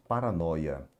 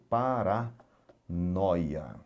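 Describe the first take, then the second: First: Said in the usual way. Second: Paranoia very slowly, broken as para, then noia; split into syllables. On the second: Shown as a demonstration. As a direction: pull Paranoia apart for a learner, pausing before noia. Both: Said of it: "eu já vou separar a sílaba pra você".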